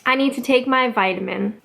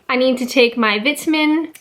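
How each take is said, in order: First: It is said with a Canadian accent. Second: It is said with an English accent. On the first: "and then the Canadian way" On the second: "I'll say the English way first"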